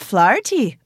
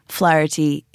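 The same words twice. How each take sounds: First: The name is said with an Irish accent. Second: The name is said with an East Coast accent. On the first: "dude's opening up the passports, he's like" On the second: "East Coast, where they kind of have Flaherty, a little bit of the like Irishness left"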